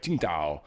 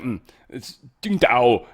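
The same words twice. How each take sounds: First: "Qingdao" said low and soft, his own way; his own attempt. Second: "Qingdao" slowed down, in a lightly put-on Chinese pronunciation; imitating a native correction. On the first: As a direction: say "Qingdao" as an English speaker tries it, lower and quieter. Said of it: "I try to say". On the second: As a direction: gently correct "Qingdao" the way a native speaker would, slowly. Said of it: "And they're like".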